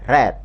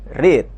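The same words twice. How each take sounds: First: The vowel is short, as in bed. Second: The vowel is long, as in need. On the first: It is the past or past participle form. "sedangkan bentuk kedua dan ketiga dibaca read" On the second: It is the present form of the verb. "Kalau bentuk pertama dibaca read"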